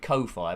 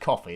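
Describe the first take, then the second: First: It is said as koh-fee, two separate parts. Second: It is said exactly like the word coffee. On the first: The speaker calls it wrong. "I pronounce it Ko-Fi" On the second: The speaker calls it right. "I think its real name is Coffee"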